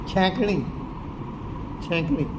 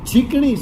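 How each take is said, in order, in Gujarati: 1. પહેલો સ્વર અનુનાસિક ay અવાજ છે. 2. પહેલો સ્વર ee અવાજ છે.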